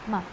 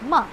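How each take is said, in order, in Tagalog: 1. Maikli at magaan ang pantig, walang galaw ng tono. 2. Bigla at matalas ang pagbaba ng tono. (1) "Yung light lang, simple lang" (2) "Pabigla lang siya. ... Going down"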